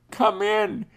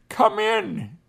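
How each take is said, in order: First: Said in the usual way. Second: High, eager "Come in"; a lightly voiced Indian woman inviting him in; woman's welcome. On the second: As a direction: voice her glad invitation, pitched high.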